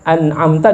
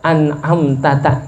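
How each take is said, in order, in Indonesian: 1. Bunyi 'ta' terakhir hanya diucapkan sekali. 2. Bunyi 'ta' terakhir diucapkan dua kali. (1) "ketika dibaca an'amta" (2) "dibaca an'amtata gitu"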